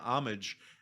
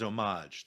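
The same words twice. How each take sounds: First: It is said with an English pronunciation. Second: It is said with a French-style pronunciation. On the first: The speaker calls it right. "the word homage" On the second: The speaker calls it wrong. "What I hate is people saying"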